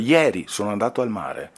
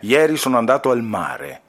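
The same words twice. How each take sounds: First: The word ieri carries the main stress. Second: The word mare carries the main stress. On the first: The time is what matters. "qui sottolinei mare oppure ieri" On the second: The place is what matters. "voglio sottolineare mare"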